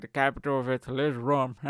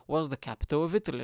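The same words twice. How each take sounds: First: Louder put-on robotic answer; assistant voice. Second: Said in the usual way. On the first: Smart speaker answering geography question, robotic impression. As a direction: imitate a device announcing a fact. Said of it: "it's gonna be like". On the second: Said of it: "Not, not informa".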